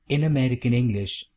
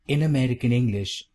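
Both takes have the same delivery.

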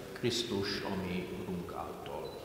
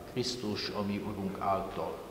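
No difference in how they are said.

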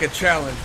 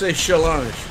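First: It is said with a plain English accent. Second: It is said with a French accent. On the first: "It's like a challenge" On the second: "but with a French accent"

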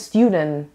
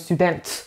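First: The T is soft and not clearly released. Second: The T is clearly and sharply released. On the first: The speaker calls it right. "تیش اونجوری واضح نیست" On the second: The speaker calls it wrong. "نمیگم"

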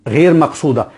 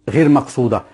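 The two takes are said the same way.

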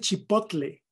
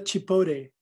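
First: It is pronounced the Spanish way. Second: It is pronounced the English way. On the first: The speaker calls it right. "Se dice" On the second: The speaker calls it wrong.

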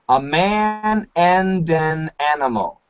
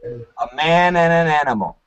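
First: The D sound in 'and' is pronounced. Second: The D sound in 'and' is dropped. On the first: "Perfect pronunciation" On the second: "we can cancel the D sound. We don't need the D sound"

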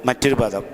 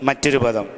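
Both takes have the same delivery.

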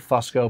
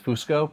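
First: It is said with an American pronunciation. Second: It is said with an Italian pronunciation. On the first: "We say Fusco" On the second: "but in Italy it's Fusco"

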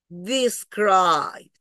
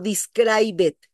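First: The ending adds no extra syllable. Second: The ending is said as an extra syllable. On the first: The speaker calls it right. "la D se come el sonido de la E" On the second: The speaker calls it wrong. "No digo describe it"

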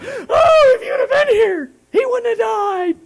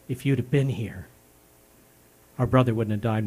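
First: It is said loudly and with distress. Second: It is said calmly and quietly.

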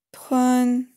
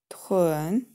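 First: The pitch stays high and level. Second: The pitch dips low, then rises. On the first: "Первый тон" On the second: "третий тон"

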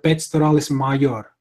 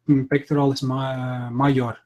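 First: It is pronounced in a Latin-sounding way. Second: It is pronounced between English and Latin styles. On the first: "that would be more like Latin" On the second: "so it's kind of like right in between"

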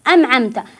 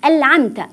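First: The n is pronounced as an m. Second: The n is pronounced as an l. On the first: "فالبعض يقرأ النون بالميم" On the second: "باللام يقول"

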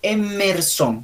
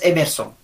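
First: The M sound is clearly emphasized. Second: The M sound is weak and not emphasized. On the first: The speaker calls it right. "tiene que enfatizarse la M" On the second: The speaker calls it wrong. "No es Emerson"

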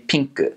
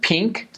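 First: The word is said with Japanese sounds. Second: The word is said with English sounds. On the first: "the same English word, but with a Japanese pronunciation" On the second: "the word pink"

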